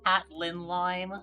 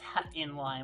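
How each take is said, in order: First: An L sound follows 'Hat' in the name. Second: No L sound follows 'Hat' in the name. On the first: The speaker calls it wrong. "people mispronounce my name as uh" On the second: The speaker calls it right. "but no"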